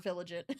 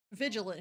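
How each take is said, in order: First: "vigilant" garbled as VIL-uh-jent, sounds swapped; "vigilant" said the wrong way, VIL-uh-jent; playful wrong "vigilant"; mock mispronunciation. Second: "Vigilant" spoken correctly as VIJ-uh-lent; careful correct "Vigilant"; right pronunciation. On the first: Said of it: "Vigilant here, not vigilant". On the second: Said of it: "not vigilant". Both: Shown as a demonstration.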